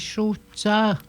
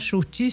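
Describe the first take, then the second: First: The word ends with an 'ah' vowel. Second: The word ends with an 'ee' vowel. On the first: The speaker calls it right. "c'est choucha" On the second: The speaker calls it wrong. "C'est pas chouchi"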